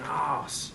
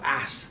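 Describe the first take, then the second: First: It is said with a British long vowel, like 'arse'. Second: It is said with an American short vowel, like 'ass'.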